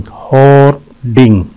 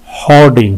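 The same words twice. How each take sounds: First: "होर्डिंग" slowly, split in two; syllable breakdown. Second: Said in the usual way. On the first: Shown as a demonstration. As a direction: pause between the syllables of "होर्डिंग". ("होर्डिंग" दो हिस्सों में धीरे) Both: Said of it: "इसके दो syllable हैं".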